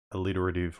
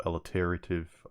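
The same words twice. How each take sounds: First: "alliterative" with short i in "lit"; one pronunciation variant. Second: "alliterative" with weight on the later "ter"; alternative pronunciation. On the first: Offering one way to say the word, "alliterative" as uh-LIT-er-uh-tiv. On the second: Offering the other way to say the word, "alliterative" as al-i-TER-uh-tiv. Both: Shown as a demonstration. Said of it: "I don't know how you wanna say it".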